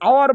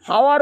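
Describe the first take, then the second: First: The word begins with no h sound. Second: The word begins with an h sound. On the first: The speaker calls it right. "আওয়ার বলতে হবে" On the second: The speaker calls it wrong. "হাওয়ার বলা যাবে না"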